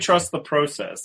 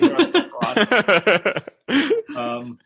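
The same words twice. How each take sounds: First: Process is pronounced with a Canadian-sounding vowel. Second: Process is pronounced with a non-Canadian vowel. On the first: "I don't say trust the process" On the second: "That's definitely trust the process"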